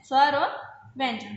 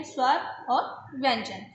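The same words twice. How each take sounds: First: Said in the usual way. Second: Slow answer. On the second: Shown as a demonstration.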